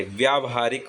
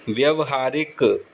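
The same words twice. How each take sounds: First: व्यावहारिक with long "vyaa-"; long opening aa. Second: व्यवहारिक with short first a, "vya-"; wrong short-a form. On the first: Teacher giving correct form, व्यावहारिक with long "vyaa". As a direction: stretch the first vowel of व्यावहारिक to aa. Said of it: "शुरू में आ की मात्रा आती है". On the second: Teacher showing learners a misspelling, व्यवहारिक with short "vya". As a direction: say व्यवहारिक as "vyav-haarik", drawn out slowly. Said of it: "व्यावहारिक नहीं होता". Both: Shown as a demonstration.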